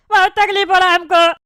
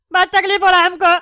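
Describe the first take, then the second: No difference in how they are said.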